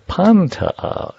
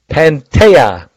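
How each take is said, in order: First: The stress is on the first syllable. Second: The stress is not on the first syllable. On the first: The speaker calls it right. "Accent on the first syllable" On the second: The speaker calls it wrong. "I forgot see"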